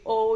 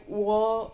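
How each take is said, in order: First: Said in the usual way. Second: "wo" with a w-glide into the vowel; accented O, said as "wo"; O pronounced "wo". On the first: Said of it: "it's not actually O, it's like wo". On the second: Shown as a demonstration. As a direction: round the O into "wo", starting on a w. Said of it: "it's not actually O, it's like".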